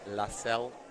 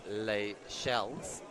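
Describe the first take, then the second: First: The name is given a French-sounding pronunciation. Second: The name sounds like English 'Les Shells'. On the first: The speaker calls it right. "definitely sounds like better French" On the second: The speaker calls it wrong. "I've been making the mistake of pronouncing it Les Shells"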